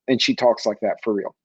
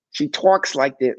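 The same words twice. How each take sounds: First: Said in the usual way. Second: Slow, with "talks" leaned on hard; "She talks like that", slowed with the weight on "talks"; stress on talks. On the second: Shown as a demonstration. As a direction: draw out "talks" to drive it home.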